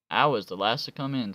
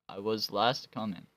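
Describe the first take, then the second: First: It is read in a Southern American accent. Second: It is read in a neutral accent. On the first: "Why am I doing southern accent now? Kentucky" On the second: "Okay, stop"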